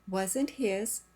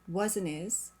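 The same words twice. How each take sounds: First: The h sound in 'his' is pronounced. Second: The h sound in 'his' is dropped.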